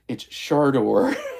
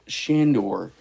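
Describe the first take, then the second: First: The first syllable is said as 'shar'. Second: The first syllable is said as 'shan'. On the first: The speaker calls it right. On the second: The speaker calls it wrong. "why are you calling it"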